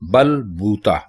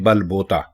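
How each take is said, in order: First: The second word has an oo vowel. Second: The second word has an o vowel. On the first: The speaker calls it right. "बे के ऊपर पेश आता है" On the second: The speaker calls it wrong. "लोग बोलते हैं बल बोता"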